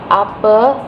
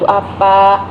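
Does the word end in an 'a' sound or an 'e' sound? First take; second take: e sound; a sound. First: The final vowel is an 'e' sound. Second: The final vowel is an 'a' sound. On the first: This is the Betawi dialect form. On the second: This is the standard Indonesian form.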